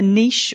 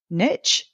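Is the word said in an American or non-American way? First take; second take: non-American; American. First: It is said in a non-American way. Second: It is said in an American way.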